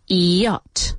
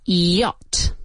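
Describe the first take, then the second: No difference in how they are said.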